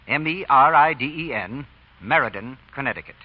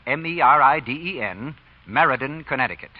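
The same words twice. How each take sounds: The two takes are said the same way.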